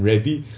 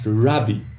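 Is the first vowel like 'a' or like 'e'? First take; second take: e; a. First: The first vowel is an 'e' sound. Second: The first vowel is an open 'a' sound. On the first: "never heard anyone pronounce it anything other than Rebbe" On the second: "it should actually be pronounced"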